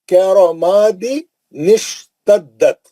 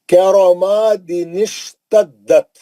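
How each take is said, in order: The two takes are said the same way.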